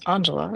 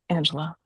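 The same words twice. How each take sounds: First: The name is pronounced the Italian way. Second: The name is pronounced the English way. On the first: This is the name's real family pronunciation. The speaker calls it right. "my first name is Angela" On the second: This is the common mistaken pronunciation. The speaker calls it wrong. "not Angela"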